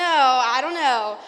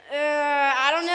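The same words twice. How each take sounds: First: Slow, stretched, louder I don't know with a falling end; drawn-out mock doubt. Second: Rising, teasing I don't know, louder; playfully unsure, half laughing; mock doubtful. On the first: Teasing Duncan from Central before the crowd, drawn-out mock doubt. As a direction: drag it out, playfully doubtful. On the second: Teasing classmate from rival school, mock doubtful. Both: Real, not acted. Teasing a fellow speaker onstage.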